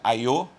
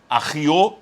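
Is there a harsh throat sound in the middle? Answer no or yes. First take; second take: no; yes. First: It is said smoothly with no throat sound. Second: It has a harsh throat sound in the middle. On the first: This is the Portuguese way of saying it. "aqui seria aiô em português" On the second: This is the Hebrew way of saying it. "ahiô em hebraico"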